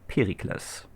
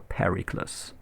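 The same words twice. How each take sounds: First: The name is pronounced the German way. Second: The name is pronounced the English way.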